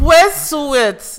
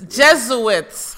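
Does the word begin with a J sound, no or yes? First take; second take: no; yes. First: The word begins without a J sound. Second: The word begins with a J sound.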